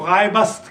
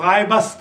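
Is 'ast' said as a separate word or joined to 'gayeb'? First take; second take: joined; joined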